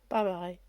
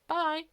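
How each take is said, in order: First: The goodbye is said slowly. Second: The goodbye is said quickly.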